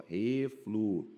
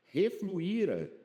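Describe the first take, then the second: First: "Refluíra" broken slowly into re, flu, íra; syllable by syllable. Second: Said in the usual way. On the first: Shown as a demonstration. Teacher demonstrating the hiatus in "Refluíra", syllable by syllable. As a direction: pause between the syllables of "Refluíra". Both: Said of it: "ó".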